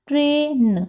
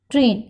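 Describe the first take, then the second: First: ट्रेन split up for dictation, ending sound separate. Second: Said in the usual way. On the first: Shown as a demonstration. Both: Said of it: "आई की sound blend हो जाएगी".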